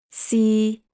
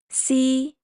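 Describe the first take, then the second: First: The syllable is said in Cantonese tone three. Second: The syllable is said in Cantonese tone one. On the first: "Tone three" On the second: "Tone one"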